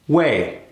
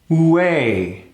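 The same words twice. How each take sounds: First: The W sound is very short. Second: The W sound is held half as long. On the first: "cut it even further" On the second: "cut that length in half"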